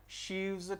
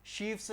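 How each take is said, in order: First: शीव्स drawn out, with a voiced VZ ending; correct plural with V. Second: शीफ्स said with an FS ending; wrong plural with F. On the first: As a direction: turn the F into a V in शीव्स, slowly, like "sheevz". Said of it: "आपको correct क्या करना है". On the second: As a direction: keep the F sound in शीफ्स, like "sheefs". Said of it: "शीफ्स नहीं होगा". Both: Shown as a demonstration.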